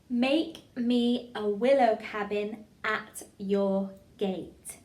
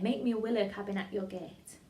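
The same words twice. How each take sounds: First: It is said with exaggerated, over-the-top energy. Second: It is said normally, without exaggeration.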